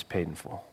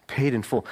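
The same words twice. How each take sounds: First: Paid in full, dropped to a near-hush, much softer and lower; hushed declaration. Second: Said in the usual way. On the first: Acted. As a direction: let "Paid in full" fall soft and low, like a secret. Christ's quiet declaration.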